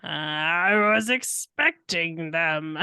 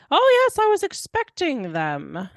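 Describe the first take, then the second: First: Slow, low nefarious villain voice; Doctor Egg guy. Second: High, loud put-on doctor voice, dropping away; Doctor Egg guy. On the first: Acted. Player repeats the faked voice, slow and nefarious. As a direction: draw it out with sinister relish. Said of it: "in a nefarious Doctor Egg guy voice". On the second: [name] fakes the doctor's voice, high and hammy. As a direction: open big and high, then fall. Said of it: "create the voice of the".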